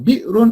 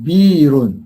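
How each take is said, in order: First: A glottal stop follows the first vowel. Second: A y sound replaces the glottal stop. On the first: "hamzah sini" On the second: "hamzah tu tukar kepada ya"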